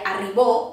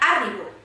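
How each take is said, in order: First: The stress is on the last syllable. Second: The stress is on the first syllable. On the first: "Si fos el bo, seria arribó" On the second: "no és la A, perquè seria arribo"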